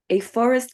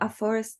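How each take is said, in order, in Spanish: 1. Se pronuncia con acento del inglés americano. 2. Se pronuncia con acento del español chileno. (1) "para Estados Unidos" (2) "para Chile"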